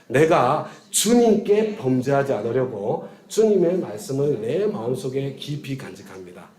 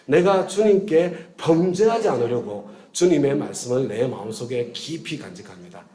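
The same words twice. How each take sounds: First: The stress is on 주님께. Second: The stress is on 범죄하지 않으려고.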